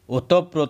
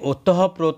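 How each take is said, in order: First: No breathy h sound follows the first syllables. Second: A breathy h sound follows the first syllables. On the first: The speaker calls it right. "ଏହା ହେବ ଏହି ଶବ୍ଦର ଠିକ୍ ରୂପ" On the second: The speaker calls it wrong. "ଓତଃପ୍ରୋତ ନ କହି"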